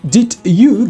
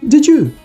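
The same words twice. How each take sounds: First: The d and y are said separately. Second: The d and y blend into j.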